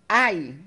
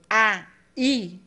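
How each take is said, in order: First: The vowels glide together in one syllable. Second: The vowels are split into two syllables. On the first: "eu só tenho um soprinho" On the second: "eu tenho dois soprinhos, sinal de que eu tenho duas sílabas"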